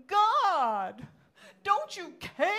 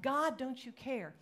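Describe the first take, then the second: First: Loud, high anguished shout to heaven; theatrical, drawn-out desperate plea; dramatic cry. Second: Slower, somewhat raised reproach; restrained version of a despairing question; toned-down plea. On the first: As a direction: cry out in hammed-up despair. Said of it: "that was dramatic". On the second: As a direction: plead earnestly without shouting. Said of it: "But we do. We think that". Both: Acted.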